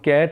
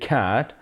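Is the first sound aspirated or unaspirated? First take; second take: unaspirated; aspirated. First: The first sound has no puff of air. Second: The first sound has a strong puff of air. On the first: The speaker calls it wrong. "हम कैट उसे बोलते हैं" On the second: The speaker calls it right. "तो हमें बोलना चाहिए कैट"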